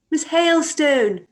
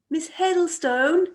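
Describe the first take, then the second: First: Louder, drawn-out call ending on a fall. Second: Said in the usual way. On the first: Acted. Chairwoman to member who can't hear her, calling out. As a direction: call her over a blaring television. Calling again over loud television.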